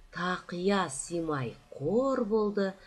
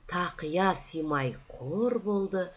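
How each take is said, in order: The two takes are said the same way.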